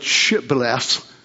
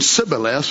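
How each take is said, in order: First: The word begins with an sh sound. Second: The word begins with a plain s sound. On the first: The speaker shows they belong to the group. The speaker calls it right. "We call it Shibboleth with the H" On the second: The speaker gives themselves away as an outsider. The speaker calls it wrong. "they're saying Shibboleth without the H"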